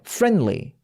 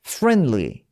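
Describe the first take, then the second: The two takes are said the same way.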